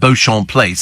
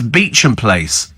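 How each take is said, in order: First: The name is said the French way, starting 'Bo'. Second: The name is said as 'Beecham', starting 'Bee'. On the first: The speaker calls it wrong. "as in the, for the French, so I thought Beauchamp Place" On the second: The speaker calls it right. "no, it's Beecham Place"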